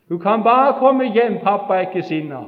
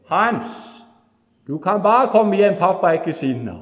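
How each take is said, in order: First: Loud, high, pleading call. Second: Loud, high friendly call. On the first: Brother repeating the call to Hans, louder. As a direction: call it again, even louder. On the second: Brother calling Hans home, loud and kind. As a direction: call out to him, reassuring. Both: Retold or imitated. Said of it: "gå ut og rope".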